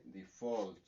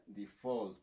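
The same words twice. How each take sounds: First: Default, stress on the syllable FAULT; stress on second syllable. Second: Default repeated, stressed on FAULT; stress on second syllable. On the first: Teacher modeling the word for students, stress on FAULT. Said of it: "la pronunciación sería directamente". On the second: Teacher repeats the model word, stress on FAULT. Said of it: "sería default". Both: Shown as a demonstration.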